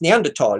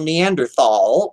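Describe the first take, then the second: First: The middle consonant is a plain t sound. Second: The middle consonant is a th sound. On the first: The speaker calls it right. "when it's pronounced Neanderthal" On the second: The speaker calls it wrong. "clods who are English would look at that and go Neanderthal"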